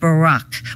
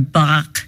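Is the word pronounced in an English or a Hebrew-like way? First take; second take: English; Hebrew-like. First: It is said with a plain English pronunciation. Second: It is said with a Hebrew-like pronunciation.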